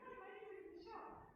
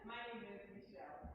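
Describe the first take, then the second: First: It is said in a high Mickey Mouse voice. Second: It is said in her normal speaking voice.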